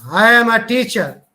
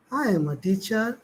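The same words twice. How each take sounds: First: Loud, arrogant, AM pushed hard. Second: Said in the usual way. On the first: Shown as a demonstration. Teacher showing students an arrogant tone, loud and proud. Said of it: "He's very rude, arrogant".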